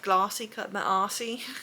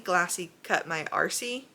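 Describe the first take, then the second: First: It is said with a South African accent. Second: It is said without a South African accent.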